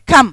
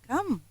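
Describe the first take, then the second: First: It sounds displeased and annoyed. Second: It sounds pleased and welcoming. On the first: The speaker is unhappy that the person is late. "it means I'm not very happy" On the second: The speaker is warmly inviting the person in. "I'm happy. I mean, I'm inviting him in"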